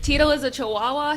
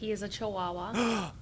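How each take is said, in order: First: It is said with strong feeling. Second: It is said flatly, without feeling.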